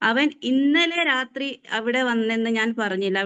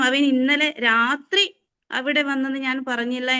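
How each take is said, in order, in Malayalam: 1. ഇന്നലെ എന്ന വാക്കിനാണ് ഊന്നൽ. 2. രാത്രി എന്ന വാക്കിനാണ് ഊന്നൽ. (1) "ഇന്നലെ എന്ന് നമ്മൾ ഊന്നി പറയുമ്പോൾ" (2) "രാത്രി വരാറില്ല, വേറെ എപ്പോഴൊക്കെയോ വരാറുണ്ട്"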